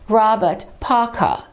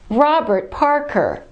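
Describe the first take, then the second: First: The R sounds are dropped, British style. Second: The R sounds are pronounced, American style. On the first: The speaker calls it wrong. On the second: The speaker calls it right.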